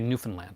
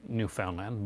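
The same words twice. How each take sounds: First: The word is said quickly and compressed. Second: The word is said slowly and carefully. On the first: "we say it quickly" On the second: "It is New, New Newfoundland"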